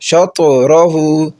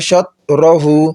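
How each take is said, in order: First: The t sound ends with an echoing bounce. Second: The t sound is closed plainly without bounce. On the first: The speaker calls it right. "इस पर कलकला ऐसे करेंगे" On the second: The speaker calls it wrong. "अगर कोई पढ़ता है शतरहु, इस तवा को तो वो गलत होगा"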